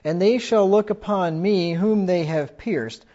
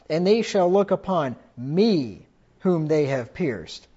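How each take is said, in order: First: The line is read plainly, without added emphasis. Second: The line is read with strong added emphasis.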